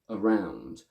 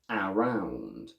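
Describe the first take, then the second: First: The first vowel is reduced to schwa. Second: The first vowel is a full vowel. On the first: The speaker calls it right. "The correct version is around, with the first A going from A to schwa" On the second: The speaker calls it wrong. "if we pronounce the first with full sounds"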